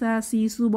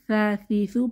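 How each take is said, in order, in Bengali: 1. ব্যঞ্জনটি একটি তীক্ষ্ণ শিসের 's' শব্দ। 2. ব্যঞ্জনটি একটি নরম 'th' শব্দ। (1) "কোনোভাবেই সা সি সু বলা যাবে না তাহলে সিনের মতো হয়ে যাবে" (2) "সা সি সু পাতলা হরফ"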